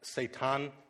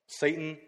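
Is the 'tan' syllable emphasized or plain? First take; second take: emphasized; plain. First: The word puts more weight on 'tan'. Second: The word has the usual modern pronunciation. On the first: The one who is opposed. "a sort of old Hebrew dialect, which is more tan" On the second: The accuser. "There's our modern, like"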